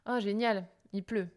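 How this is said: The voice falls at the end. It is meant ironically. "ma voix tombe à la fin"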